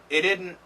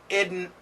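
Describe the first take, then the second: Both takes have the same delivery.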